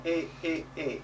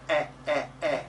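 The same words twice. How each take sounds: First: "e" as a closed ay without glide. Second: "e" as an open eh. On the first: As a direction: say "e" narrow and tense. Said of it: "it's closed". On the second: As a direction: say "e" open, like the vowel in bed. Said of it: "it's open". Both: Shown as a demonstration.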